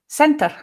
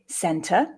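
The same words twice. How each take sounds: First: The final r is a quick tap. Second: The final r is not pronounced. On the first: "center with a tap" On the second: "non-rhotic center, which is what I would say"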